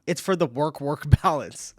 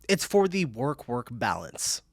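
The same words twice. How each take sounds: First: Laughing through the words. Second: Slow, deliberate "work-work balance"; slow repeat. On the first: Reading a viewer's joke aloud, laughing. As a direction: crack up while reading the line out. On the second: Repeating a viewer's joke after laughing, slow and deliberate. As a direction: draw out "work-work balance" at an unhurried pace. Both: Real, not acted.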